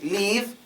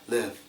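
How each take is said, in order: First: The vowel is long and tense, like 'leave'. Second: The vowel is short and relaxed, throat open. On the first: The speaker calls it wrong. "some people say leave, leave, because they can't say it right" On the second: The speaker calls it right. "open your throat and pretend as if you're breathing out warm air"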